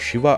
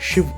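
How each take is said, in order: First: The word ends with a full final vowel. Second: The final vowel is dropped, ending on a consonant. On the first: "ನೀವು ಶಿವ ಅಂದ್ರೆ" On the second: "ಕೊನೆ ಅಕ್ಷರನ ಕತ್ತರಿಸ್ತಾರೆ"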